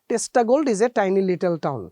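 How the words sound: The t sounds are said in a Bengali way. The speaker calls it wrong.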